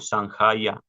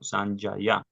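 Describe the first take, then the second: First: The j is pronounced as a throaty h. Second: The j is pronounced like a y sound. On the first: The speaker calls it wrong. "no Sanjaya" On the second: The speaker calls it right. "sino Sanjaya"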